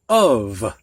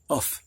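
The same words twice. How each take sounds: First: The word ends with a V sound. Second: The word ends with an F sound. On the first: The speaker calls it right. "that F sounds like a V" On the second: The speaker calls it wrong. "we don't say of"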